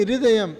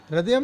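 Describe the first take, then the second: First: हृदयम with "hri" as "hri-dayam"; correct pronunciation. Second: हृदयम said with "ra" as "radiyam"; mispronunciation demo. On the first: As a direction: sound the "hri" clearly in हृदयम. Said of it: "एच आर आई". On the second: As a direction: show the wrong reading, "radiyam" for हृदयम. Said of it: "हृदयम नहीं". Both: Shown as a demonstration.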